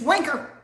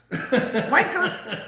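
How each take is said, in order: First: Squawked parrot-style, louder and higher; parrot mimic. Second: Laughing repeat. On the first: Imitating the cursing parrot's squawk. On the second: Retold or imitated. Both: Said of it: "He says".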